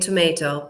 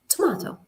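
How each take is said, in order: First: It is said with an American pronunciation. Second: It is said with a British pronunciation.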